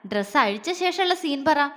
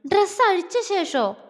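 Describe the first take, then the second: First: Said in the usual way. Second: Much higher, wide-eyed disbelief; shocked surprise. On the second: Acted. Jwala echoing her friend's question, in shock. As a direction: stress on dress, echoed back in shock. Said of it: "അവളിൽ അമ്പരപ്പ്".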